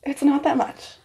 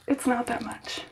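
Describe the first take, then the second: First: Said in the usual way. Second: Calming herself down, barely voiced; softer self-reassurance. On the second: Real, not acted. Reassuring herself mid-haircut, much softer. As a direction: repeat it much softer, to yourself.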